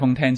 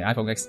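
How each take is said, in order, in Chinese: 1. 最后一个词读作数字 ten。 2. 最后一个词读作字母 ex。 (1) "正確嘅读法系iPhone Ten" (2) "唔系iPhone X"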